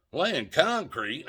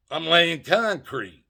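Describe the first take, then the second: First: Slow, puzzled echo rising at the end; incredulous repeat. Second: Slow, dry sarcastic answer with a falling end; deadpan sarcasm. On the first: Cop repeating the answer back, slow disbelieving question. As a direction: echo it back like you can't believe it. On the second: To the cop, sarcastically answering what he's doing, slow deadpan. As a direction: say the obvious lie flatly, mocking the question. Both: Retold or imitated.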